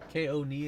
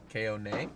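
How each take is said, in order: First: The last syllable sounds like 'nee'. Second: The last syllable sounds like 'nay'. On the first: The speaker calls it right. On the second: The speaker calls it wrong. "you were saying K O nay"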